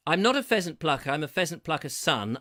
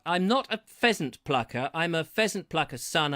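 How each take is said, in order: First: Quicker, louder tongue-twister attempt; faster tongue twister. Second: Tongue twister at a measured pace; careful tongue twister. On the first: Host retrying the pheasant twister, faster this time. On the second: Host trying a pheasant tongue twister, measured pace. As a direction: recite it carefully, not rushing. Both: Shown as a demonstration. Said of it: "have to say it a bit faster than that".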